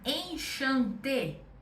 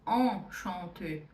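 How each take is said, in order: First: It is pronounced with Portuguese sounds. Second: It is pronounced with a French nasal vowel. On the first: The speaker calls it wrong. "que o português pede esse som" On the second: The speaker calls it right. "a ideia é que seja um som nasal"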